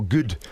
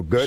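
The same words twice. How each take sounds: First: Fronted Scottish vowel in "good"; Scottish accent. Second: Relaxed American vowel in "good"; American accent. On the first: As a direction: say "good" like a Scot, vowel pushed forward. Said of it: "or we go". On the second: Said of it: "then Americans go". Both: Shown as a demonstration.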